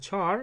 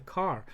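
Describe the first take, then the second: First: The word begins with a ch sound. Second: The word begins with a k sound. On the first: "Some people pronounce it as a char" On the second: "some people pronounce it as a car"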